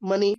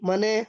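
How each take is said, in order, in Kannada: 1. ಈ ಪದ ಇ ಸ್ವರದಲ್ಲಿ ಕೊನೆಗೊಳ್ಳುತ್ತದೆ. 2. ಈ ಪದ ಎ ಸ್ವರದಲ್ಲಿ ಕೊನೆಗೊಳ್ಳುತ್ತದೆ.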